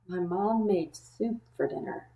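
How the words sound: The voice sounds worried and uneasy. The person fears the soup will taste bad. "And then the last way is worried"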